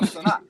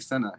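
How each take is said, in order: First: The first vowel sounds like the one in 'father'. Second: The first vowel sounds like the one in 'bed'. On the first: This is the correction someone else insisted on. "he's trying to correct my pronunciation" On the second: This is how the parent says the daughter's name. "I was like, "Senna.""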